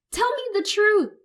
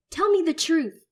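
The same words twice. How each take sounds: First: Very high, loud squeal. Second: Loud, high snarled demand. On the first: Son squealing at his mother, tearful. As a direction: squeal it through tears. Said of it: "I squeal". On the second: Son squaring up to his mother, snarling. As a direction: snarl it in her face. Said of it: "I snarl". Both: Acted.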